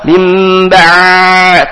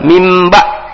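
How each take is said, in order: First: The ain sound is drawn out far too long. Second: The ain sound stops abruptly and is clipped. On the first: "terlalu panjang rohawa" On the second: "jadi syiddah dia langsung berhenti"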